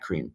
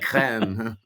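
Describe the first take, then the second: First: The word is said with a plain English accent. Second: The word is said with a French accent.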